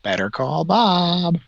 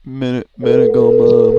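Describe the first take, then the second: First: Higher, slow jingle-like slogan. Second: Belted, higher ad slogan; loud slogan. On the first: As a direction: sing it out like a TV ad. Mimicking the ad slogan. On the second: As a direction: belt it out like a commercial. Louder echo of the slogan. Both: Pretend.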